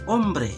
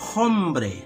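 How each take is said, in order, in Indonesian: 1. Huruf h di awal tidak dibunyikan. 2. Huruf h di awal dibunyikan. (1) "dibaca hombre" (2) "Kata hombre ditulis hombre"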